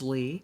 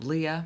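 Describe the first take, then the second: First: The name is one syllable with an ee vowel. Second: The name is two syllables, ee then uh. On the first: The speaker calls it right. "My name is Lee" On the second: The speaker calls it wrong. "I don't know where that one comes from"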